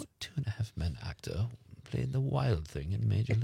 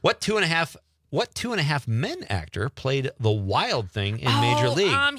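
First: It is read in a British accent. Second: It is read in an American accent.

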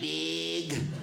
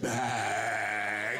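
First: The word is said with a nasal Wisconsin accent. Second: The word is said with a standard American accent. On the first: "That's the way we say the word bag" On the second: "It's pronounced bag"

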